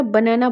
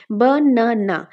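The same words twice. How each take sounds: First: Said in the usual way. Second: banana split into three separate beats, বা, না, না; syllable by syllable. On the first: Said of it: "যখন আমরা বানানা বলবো". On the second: Shown as a demonstration. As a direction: say banana slowly, broken after each syllable. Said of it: "আমরা কয়টা ভাগে ভাগ করতে পারছি?".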